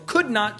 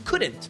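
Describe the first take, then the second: First: Both words are said in full, vowel kept. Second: The vowel of 'not' disappears completely.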